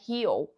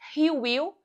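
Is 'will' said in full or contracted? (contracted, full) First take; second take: contracted; full. First: Will is shortened and joined to the pronoun. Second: Will is said in full as separate word.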